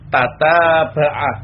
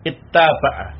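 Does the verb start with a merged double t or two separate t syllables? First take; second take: separate; merged. First: Two separate t syllables begin the word. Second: A merged double t follows an initial i. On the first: "Ini tidak idgham" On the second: "Boleh diidghamkan menjadi ittaba'ah"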